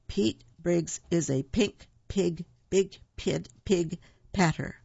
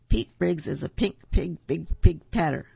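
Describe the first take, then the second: First: It is read at a slower pace. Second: It is read at a faster pace.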